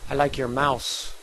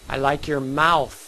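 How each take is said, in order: First: The last word ends with an s sound. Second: The last word ends with a th sound. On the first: The speaker calls it wrong. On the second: The speaker calls it right.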